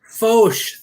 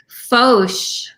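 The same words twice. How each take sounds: First: Fauche echoed back as foash; repeating the pronunciation. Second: Fauche said as foash; French pronunciation. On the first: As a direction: copy Fauche just as heard. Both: Shown as a demonstration. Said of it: "how did you pronounce this".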